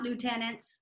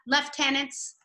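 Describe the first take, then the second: First: It is pronounced a non-British way. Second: It is pronounced the British way. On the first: This is not how it is said in Canada. "not lieutenants" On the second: This is how it is said in Canada. "we have lieutenants"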